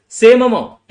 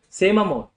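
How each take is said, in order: First: Much louder and higher, punching SAME; emphatic shout. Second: Said in the usual way. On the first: Shown as a demonstration. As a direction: hammer "Same amount" home, driving SAME hard. Teacher hammers the repeated point.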